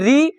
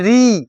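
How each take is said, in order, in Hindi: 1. यह अक्षर हल्के से और छोटा बोला जाता है। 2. यह अक्षर ज़ोर से और खींचकर बोला जाता है।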